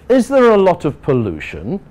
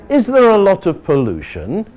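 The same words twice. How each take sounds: No difference in how they are said.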